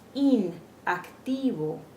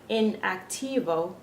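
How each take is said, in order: First: The first vowel is a tense 'ee' sound. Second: The first vowel is a short English 'i'. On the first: The speaker calls it right. "we're saying inactivo" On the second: The speaker calls it wrong. "we're not saying in, in activo"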